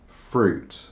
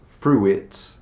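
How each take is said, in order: First: The vowels merge into one sound, one syllable. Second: Both vowels are sounded, giving two syllables. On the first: The speaker calls it right. "in English it's just fruit" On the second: The speaker calls it wrong. "it's not fruit"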